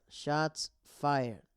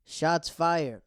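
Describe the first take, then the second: First: Said in the usual way. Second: Loud, high hype call; hyped up. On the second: Real, not acted. Hyping the drama.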